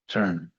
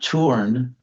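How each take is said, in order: First: The vowel is an r-colored 'er' sound. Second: The vowel is a clear 'u' before r. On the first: The speaker calls it right. "but the vowel is actually the R" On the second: The speaker calls it wrong. "It's not turn, it's spelled with a U"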